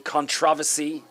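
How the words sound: It is said with an English accent.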